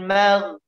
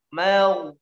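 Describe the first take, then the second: First: It ends in a thick throaty gh sound. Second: It ends in a w-like glide. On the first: The speaker calls it right. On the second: The speaker calls it wrong.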